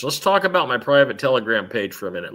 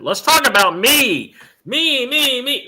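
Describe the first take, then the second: First: Said in the usual way. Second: Higher, louder, self-adoring "me, me, me"; playful mock vanity, climbing higher on each "me"; mock narcissist. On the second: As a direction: ham up a vain diva gushing about herself. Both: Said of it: "I slipped into narcissism land".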